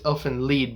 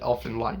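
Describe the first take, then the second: First: The name is pronounced the German way. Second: The name is pronounced the English way. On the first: This is the original pronunciation. "because it's supposed to be German" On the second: This is how some people say it. "somebody who fucking pronounces it"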